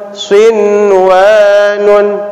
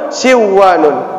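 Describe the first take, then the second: First: The n sound is heard clearly. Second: The n sound is merged away. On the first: The speaker calls it right. "dibaca jelas" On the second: The speaker calls it wrong. "tidak boleh kita baca"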